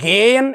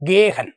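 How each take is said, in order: First: The middle h sound is left silent. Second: The middle h sound is clearly pronounced. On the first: The speaker calls it right. "ശരിക്ക് വായിക്കുന്നത് എങ്ങനെയാണെന്ന് പറയാം" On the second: The speaker calls it wrong. "അപ്പോൾ അവർ ഹ ഉച്ചരിച്ച് വായിച്ചു"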